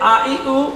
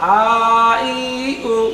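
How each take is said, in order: First: The vowels are said short and quickly. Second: The vowels are drawn out long. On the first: The vowels carry short vowel marks. "তাড়াতাড়ি করতে হয় ... এটা হলো হরকত" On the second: The vowels are lengthened by a following letter. "এটা হলো মাদ"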